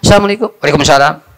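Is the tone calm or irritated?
irritated. It is said in an irritated, grumpy tone.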